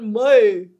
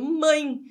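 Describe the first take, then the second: First: The word ends with a full E vowel sound. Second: The word ends with an I-like vowel sound. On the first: "Eu estou falando mãe? Não" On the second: "esse E saiu no som de I"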